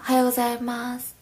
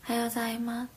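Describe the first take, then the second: First: Every syllable of the greeting is pronounced. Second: The o and go syllables are dropped. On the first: This is the more proper, careful greeting. "もうちょっとちゃんとするときは" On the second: This is a quicker, casual shortcut greeting. "おとごをなくしてるね"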